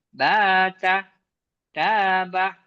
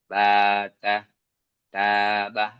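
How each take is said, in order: First: The pitch swings up and down melodically. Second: The pitch stays flat across the syllables. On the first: The speaker calls it right. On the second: The speaker calls it wrong.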